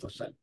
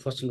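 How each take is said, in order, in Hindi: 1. पहला अक्षर छोटा, फिर दूसरा लंबा। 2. पहला अक्षर लंबा, फिर दूसरा छोटा। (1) "एक दो के वजन पे ले लेता हूँ" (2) "दो एक के वजन पे लीजिए"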